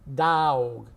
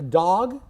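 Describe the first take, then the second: First: Said stretched out in a Southern drawl. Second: Said short in a plain California accent. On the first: "Dog in the South becomes dog" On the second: "that's my California, Los Angeles accent"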